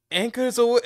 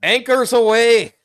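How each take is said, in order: First: High shouted order; loud yell. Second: High, loud, slow Irish shout; Irish-accented yell. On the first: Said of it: "Uh, fuck, let me". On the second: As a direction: belt it with an Irish lilt. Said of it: "I'm just gonna go Irish on this". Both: Acted.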